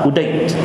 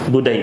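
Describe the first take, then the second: First: The name begins with a glottal stop. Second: The name begins with a hard g sound. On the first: This is how Egyptians say it. "Mesir kalau Qaf jadi Hamzah" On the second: This is how people of the Hijaz say it. "kalau kata Qaf tu jadi Ga"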